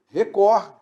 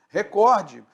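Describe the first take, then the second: First: The stress is on the second syllable. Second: The stress is on the second syllable.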